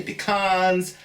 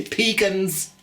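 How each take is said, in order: First: "pecans" said as pih-KAHNZ, stress on the second syllable; "pecans" with a long ah, stressed at the end; pecan pronunciation. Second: "pecans" said as PEE-kunz, stress on the first syllable; "pecans" with a long ee, stressed at the start; other pecan pronunciation. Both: Shown as a demonstration. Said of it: "some people say pecans".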